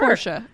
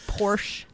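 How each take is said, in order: First: The name is said with a German pronunciation. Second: The name is said with an English pronunciation. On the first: The speaker calls it right. "You want me to say it the German way?" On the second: The speaker calls it wrong. "That's incorrect"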